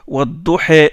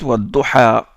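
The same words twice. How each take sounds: First: The final vowel leans toward an 'e' sound. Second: The final vowel is an open 'a' sound. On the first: "ils récitent Wadduha, c'est-à-dire ils font ce qu'on appelle les" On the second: "Hafs, il récite Wadduha"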